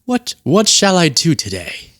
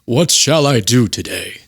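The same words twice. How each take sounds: First: Slightly raised, slow pondering voice; slow, stately mock deity; God impression. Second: Slow, stately deity voice; grand, drawn-out mock deity; God impression. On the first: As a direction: muse slowly like a deity with options. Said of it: "and God's like". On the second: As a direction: intone it slowly as the Almighty. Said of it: "That's God".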